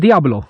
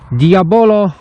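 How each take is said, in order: First: The name is said with two syllables. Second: The name is said with three syllables. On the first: This is the casual market-stall way of saying it. "jak ja to mówię, Diablo" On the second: This is the official name as written. "mówię Diablo, a nie Diabolo"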